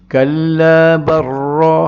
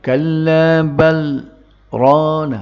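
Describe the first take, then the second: First: The l blends straight into the r, no stop. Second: A brief stop without breath comes after bal. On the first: "Sepatutnya dia jadi idgham kalau biasa" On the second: "Tapi dia suruh baca lagu tu"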